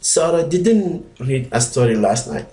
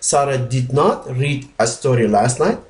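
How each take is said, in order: First: Did not is contracted into one short word. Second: Did not is said as two full words. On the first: The speaker is softer. "the other one is a little softer" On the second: The speaker is stronger, maybe a little angry. "it means stronger than when you say don't"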